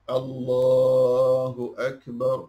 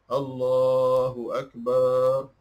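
First: Only the vowel in 'lah' is drawn out long. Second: Other vowels are drawn out long as well. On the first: The speaker calls it right. "Yang Allahu Akbar, macam tu" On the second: The speaker calls it wrong.

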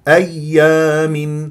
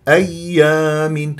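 Both takes have the same delivery.

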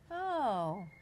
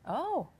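First: It sounds pleased. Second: It sounds surprised.

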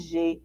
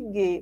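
First: It is a soft zh sound, as in gema. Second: It is a hard g sound, as in gato. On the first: "vai ter o som de G" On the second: "Não vai ter o som de G"

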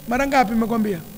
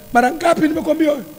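First: It is said softly, with a lowered voice. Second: It is said loudly, with a raised voice.

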